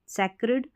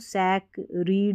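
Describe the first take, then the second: First: The second syllable has a short 'i' vowel. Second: The second syllable has a long 'ee' vowel. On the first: The speaker calls it right. "सैक्रिड पढ़ेंगे इसको" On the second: The speaker calls it wrong. "अब वैसे देखेंगे तो सैक रीड हो गया, नहीं"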